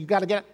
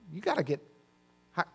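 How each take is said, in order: First: It is said in a harsh, condemning tone. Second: It is said in a calm, gentle tone. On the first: The listener is being judged and condemned. The speaker calls it wrong. "He's not condemning and saying" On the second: The listener is being urged kindly, without judgment. The speaker calls it right. "He's just saying, look"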